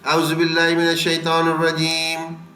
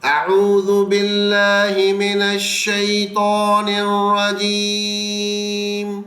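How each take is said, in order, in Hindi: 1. ध्वनियाँ बिना ध्यान दिए आपस में मिला दी गई हैं। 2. हर ध्वनि सावधानी से और साफ़ तरीके से बोली गई है। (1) "एक वैसे जैसे हम आम पढ़ते हैं" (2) "हमें थोड़ा सा तवज्जो लानी है"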